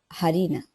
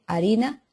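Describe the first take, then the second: First: It starts with an aspirated h. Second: It starts with no h sound.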